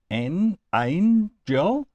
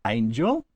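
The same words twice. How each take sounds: First: "an angel" drawn out slowly as two beats, AN, GEL; split into syllables. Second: Said in the usual way. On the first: Shown as a demonstration. Teacher counting out two syllables for students, slowly split apart. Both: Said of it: "has two syllables".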